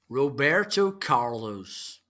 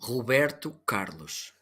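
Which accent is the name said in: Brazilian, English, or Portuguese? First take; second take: English; Portuguese. First: It is said in an English accent. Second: It is said in the speaker's own Portuguese accent. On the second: "in my Portuguese"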